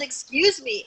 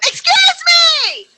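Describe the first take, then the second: First: It is said fairly quietly, without force. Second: It is yelled loudly, with strong force. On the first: The speaker calls it wrong. "not like that" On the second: The speaker calls it right. "I went"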